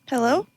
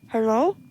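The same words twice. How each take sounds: First: The voice sounds clear and unmuffled. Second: The voice sounds muffled, as through cloth. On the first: "that's not the right filter" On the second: "put like a sock in your mouth or something and talk"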